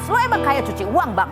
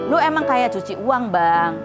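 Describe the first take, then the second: First: It is read in a harsh, aggressive tone. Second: It is read in a soft, gentle tone. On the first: "Coba kalau nadanya ngegas" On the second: "kalau aku baca dengan nada lemah lembut"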